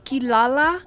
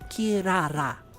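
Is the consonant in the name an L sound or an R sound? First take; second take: L; R. First: The name is said with L sounds. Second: The name is said with R sounds. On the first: "in English" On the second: "it's pronounced kirara. They don't use an L, they use an R"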